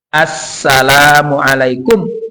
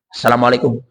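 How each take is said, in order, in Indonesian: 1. Bunyi ganda dan vokal panjangnya ditahan. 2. Bunyi ganda dan vokal panjangnya dipendekkan. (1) "Assala as tasdid di situ, tasdid ada tasdidnya itu. Assala panjang lagi" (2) "Jangan begitu"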